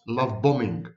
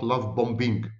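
First: BOMBING with a silent middle b, bomming; correct pronunciation. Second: BOMBING with the middle b voiced, bom-BING; deliberate mispronunciation. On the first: Professor giving viewers the correct form, silent-b BOMBING. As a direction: leave the second b out of BOMBING. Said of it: "The correct pronunciation is". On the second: Professor showing viewers the wrong form, hard-b BOMBING. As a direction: sound both b's in BOMBING, bom plus bing. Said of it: "not love bombing". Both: Shown as a demonstration.

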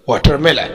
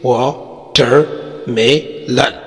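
First: Said in the usual way. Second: "watermelon" very slowly as वा, टर, मे, लन; split into syllables. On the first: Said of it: "चार syllable है". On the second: Shown as a demonstration. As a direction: pause after each of the four syllables of "watermelon". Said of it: "चार syllable है जैसे". ("Watermelon" کو چار حصوں میں ٹھہر ٹھہر کر)

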